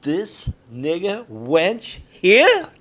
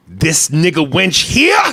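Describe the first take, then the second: First: Very slow, drawn-out line, here rising; committed take. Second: Slow, drawn-out menacing quote; quoting the line. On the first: Acted. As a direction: stretch every word with menace. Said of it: "action, [name]". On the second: Retold or imitated. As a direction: drag out the question, here rising. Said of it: "That's the way he says it".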